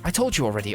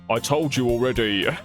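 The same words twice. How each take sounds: First: It is said in a put-on character voice. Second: It is said in the speaker's normal voice. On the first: The speaker calls it wrong. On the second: The speaker calls it right.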